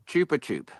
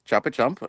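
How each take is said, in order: First: The name is said in its original form. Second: The name is said in its common form. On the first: This is the correct pronunciation. The speaker calls it right. "Apparently, it's pronounced uh" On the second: This is how people usually say it. The speaker calls it wrong. "how we say it"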